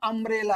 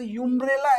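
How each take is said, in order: First: The word begins directly with a vowel sound. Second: The word begins with a 'y' glide sound. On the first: The speaker calls it right. "अम्ब्रेला आहे म्हणून स्वराशी संबंधित आहे" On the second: The speaker calls it wrong. "याची सुद्धा युम्ब्रेला आहे का"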